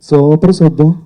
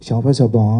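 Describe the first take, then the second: First: It is said in a Tamil accent. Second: It is said in a Chinese accent.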